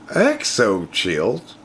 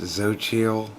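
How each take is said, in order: First: The name begins with an extra vowel sound. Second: The name begins without an extra vowel sound. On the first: The speaker calls it wrong. "There's no E in front of it" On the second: The speaker calls it right. "It's pronounced Xochitl"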